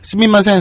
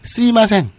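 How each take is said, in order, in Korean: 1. 두 번째 음절의 m 소리는 유지됩니다. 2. 두 번째 음절의 m 소리는 탈락합니다. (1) "굳이 빠르게 얘기하면 우리 발음상 스미마생, 스미마생 하면 좀 걸리니까" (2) "스이마생으로 발음해도 충분히 알아들어요"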